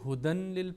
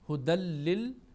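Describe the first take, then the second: First: A clear n sound is heard before the l. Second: The n merges into the l, no n heard. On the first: The speaker calls it wrong. "कई इसको हुदन लिल पढ़ते हैं" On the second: The speaker calls it right. "नून की आवाज़ बिल्कुल नहीं आनी चाहिए"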